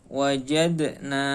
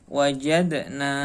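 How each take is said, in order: The two takes are said the same way.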